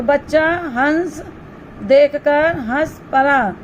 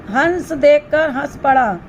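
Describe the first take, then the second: First: Slower, word-by-word reading of the sentence; teacher slowly rereading the example; slow repeat. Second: Said in the usual way. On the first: Shown as a demonstration. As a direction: repeat it slowly so the class hears each word. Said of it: "same sentence repeated slowly". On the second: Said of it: "example sentence read first".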